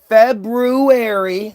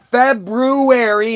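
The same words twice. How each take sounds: First: The word is said with the first r sound. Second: The word is said without the first r sound. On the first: The speaker calls it right. "look how it's spelled" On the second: The speaker calls it wrong. "not February"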